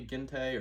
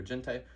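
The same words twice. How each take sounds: First: Gentei offered as a tentative other reading; alternative pronunciation. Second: Gentei with a soft G, as in gentlemen; alternative pronunciation. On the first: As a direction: try Gentei with a hard G. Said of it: "but it might be". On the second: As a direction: say Gentei starting with a J sound. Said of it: "It's probably Gentei, actually, 'cause it's about a bunch of gentlemen". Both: Shown as a demonstration.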